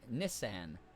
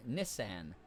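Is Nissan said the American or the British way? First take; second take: British; British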